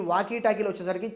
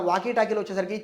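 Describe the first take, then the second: No difference in how they are said.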